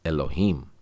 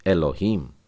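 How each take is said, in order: No difference in how they are said.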